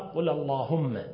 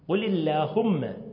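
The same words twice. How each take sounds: First: The L sound is heavy and emphatic. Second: The L sound is light and unemphatic. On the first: The speaker calls it wrong. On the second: The speaker calls it right.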